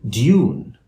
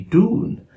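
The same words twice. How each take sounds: First: A y sound comes before the oo vowel. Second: The oo vowel follows with no y sound. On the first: "a standard British English speaker would say" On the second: "standard American English speaker would say"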